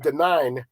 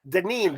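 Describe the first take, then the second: First: The second syllable rhymes with 'mine'. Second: The second syllable rhymes with 'mean'. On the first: The speaker calls it wrong. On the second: The speaker calls it right.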